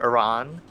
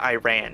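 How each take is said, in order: First: Iran is pronounced the non-Americanized way. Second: Iran is pronounced the Americanized way. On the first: The speaker calls it right. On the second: The speaker calls it wrong.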